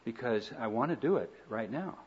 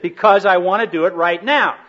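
First: The voice sounds gentle and calm. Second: The voice sounds angry and sharp. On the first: The reply is kind and accepting. "Only I didn't say it that way" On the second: The reply is defensive and hostile. "the tone of voice that communicated anger"

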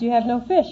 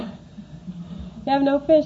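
First: The question sounds friendly and gentle. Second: The question sounds scornful and mocking. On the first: A kindly question to friends. The speaker calls it right. "I like to read it that way" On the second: Did you really expect this thing to work? The speaker calls it wrong. "Like, did you really expect this thing to work?"

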